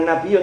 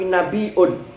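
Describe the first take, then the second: First: It is said with a double y and no glottal stop. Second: It is said with a glottal stop before the ending. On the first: This is the form used by the Quraysh. "bukan nabiyun" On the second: This is the form used by the Tamim tribe. "Tamim itu ... nabiun"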